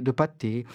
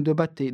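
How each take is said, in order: First: Said in the usual way. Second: "pâté" slipped into "bâté", b for p; fumbled word. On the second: Real, not acted. Chronicler tripping over his slice of pâté, fumbled word. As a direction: stumble on "pâté", starting it with a b. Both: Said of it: "je bafouille".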